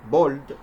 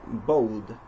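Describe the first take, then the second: First: "bold" with a pure, unglided O; mispronounced O. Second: "bold" with O gliding into a hidden W; American O sound. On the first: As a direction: say "bold" without any W in the vowel. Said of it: "Instead of bold". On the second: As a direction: draw "bold" out as boh-wld. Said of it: "we must say bold". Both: Shown as a demonstration.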